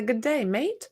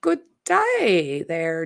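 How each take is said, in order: First: A light, half-hearted Australian "Good day, mate"; Australian accent. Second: Said in the usual way. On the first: Shown as a demonstration. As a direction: try out a modest Aussie greeting. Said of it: "That was my big impression". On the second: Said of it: "I was gonna say, "Good day, mate".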